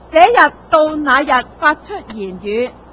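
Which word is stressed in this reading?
none. The words are read evenly, with no extra stress.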